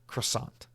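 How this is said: It is said with an anglicized American accent.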